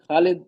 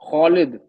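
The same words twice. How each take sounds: First: The first vowel is a light, open 'aa'. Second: The first vowel is heavy and sounds like 'o'. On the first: The speaker calls it wrong. "नहीं ये गलत तलफ्फुज है" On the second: The speaker calls it right. "जबान को उठा के पढ़ना है, खौ"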